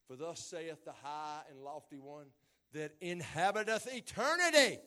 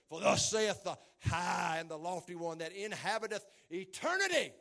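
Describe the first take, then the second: First: It is read in a plain, ordinary voice. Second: It is read in a powerful, authoritative voice. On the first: The speaker calls it wrong. "I feel like I ought to say that with some kind of authority" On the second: The speaker calls it right. "It should be said with some kind of power"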